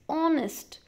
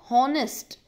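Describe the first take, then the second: First: The word starts with a vowel sound. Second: The word starts with a sounded h. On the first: The speaker calls it right. "It's honest. So it's starting with the vowel sound of O" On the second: The speaker calls it wrong. "It's not honest"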